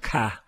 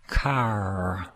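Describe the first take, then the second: First: The final r sound is dropped. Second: The final r sound is pronounced. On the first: The speaker calls it wrong. "not ca" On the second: The speaker calls it right. "Say the word car"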